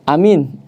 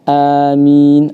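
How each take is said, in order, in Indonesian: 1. Semua vokalnya pendek. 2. Vokal pertama dipanjangkan. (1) "pendek semuanya" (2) "yang benar"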